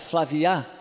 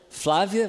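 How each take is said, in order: First: The stress falls on the last syllable. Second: The stress falls before the last syllable. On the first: A French speaker says it. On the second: A native Portuguese speaker says it.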